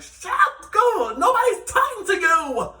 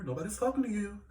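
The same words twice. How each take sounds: First: Loud, high, drawn-out yell; triggered mock shout. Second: Softer offhand mimicry of a castmate; imitating castmate's remark. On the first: Vlogger retorts to castmate's trigger phrase, high exaggerated shout. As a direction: shriek it back in exasperation, half laughing. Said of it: "it's like a trigger for me". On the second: Vlogger mimics castmate butting in out of nowhere, softly tossed off. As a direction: toss it out quietly, quoting her. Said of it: "She did that quite a few times".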